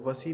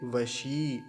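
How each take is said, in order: First: It has a plain dental s sound. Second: It has a palatal sh and a long i. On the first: The speaker calls it wrong. "ऐसे वसी नहीं होगा" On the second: The speaker calls it right. "थोड़ा सा लंबा खींचेंगे ... तालव्य शकार"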